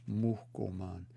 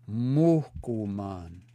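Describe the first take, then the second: First: "muhkuman" softer and less drawn out, long O kept; softer repeat. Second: "Muhkuman" very slow, first vowel stretched long; drawn-out long O. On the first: Teacher repeating the word for a learner, soft and measured. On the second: Teacher answering how the word sounds, slow and stretched. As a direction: stretch out "Muhkuman" syllable by syllable, holding the O. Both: Shown as a demonstration. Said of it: "That's a long O".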